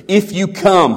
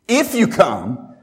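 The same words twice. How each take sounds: First: A lightly stressed quote, said at a normal pace; plain first reading of the quote; quoting Jesus. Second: Slowed down to drive the point home; slow emphatic repeat. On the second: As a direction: repeat "if you come" slowly, leaning on each word. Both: Acted. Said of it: "he says".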